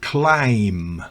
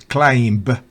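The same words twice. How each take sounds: First: No b sound is heard at all. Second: A b sound is heard at the end. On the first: The speaker calls it right. "B es muda en climb" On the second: The speaker calls it wrong. "no es climb"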